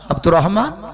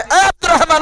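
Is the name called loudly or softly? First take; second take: softly; loudly. First: The name is called softly and gently. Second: The name is shouted loudly.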